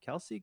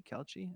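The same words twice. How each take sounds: First: "Kelce" said as KEL-see, soft and rising; quietly trying "Kelce" as KEL-see; trying a pronunciation. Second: "Kelce" said as KEL-chee, softer, rising; trailing off on "Kelce" as KEL-chee; trying a pronunciation. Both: Real, not acted. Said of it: "I don't know".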